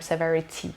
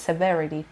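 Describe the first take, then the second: First: The middle t is a crisp t sound. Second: The middle t sounds like a quick d. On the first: The speaker calls it wrong. "نمیگم severity" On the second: The speaker calls it right. "امریکن اکسنت و قشنگش میشه severity"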